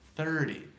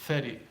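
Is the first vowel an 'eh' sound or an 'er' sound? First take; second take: er sound; eh sound. First: The first vowel sounds like an 'er'. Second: The first vowel sounds like a plain 'eh'. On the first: The speaker calls it right. "It's thir, first of all" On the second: The speaker calls it wrong. "I still wouldn't say it's a theti"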